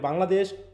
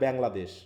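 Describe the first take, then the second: First: It is said with a Bengali accent. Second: It is said with an English accent.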